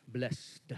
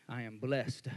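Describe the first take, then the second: First: "Blessed" said as bless-ed in two syllables. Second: Said in the usual way. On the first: Shown as a demonstration. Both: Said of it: "We even put two syllables on it".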